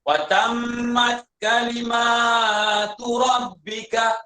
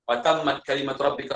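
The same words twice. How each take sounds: First: The vowel after 'kalim' is long. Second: The vowel after 'kalim' is short. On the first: The word is a feminine plural. "qiraat lain baca panjang" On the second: The word is singular. "riwayat Hafs baca"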